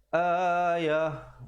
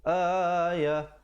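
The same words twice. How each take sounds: The two takes are said the same way.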